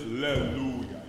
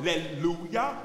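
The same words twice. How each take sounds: First: "Alleluia" with soft, mushy l; yogurty "Alleluia"; mushy yogurty diction. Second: "Alleluia" with a crisp tongue-tip l; crisp tongue-tip diction. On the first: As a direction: let the l of "Alleluia" go soft and thick. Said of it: "One sounds very, like, yogurty". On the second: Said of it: "more of the tip of the tongue". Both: Shown as a demonstration.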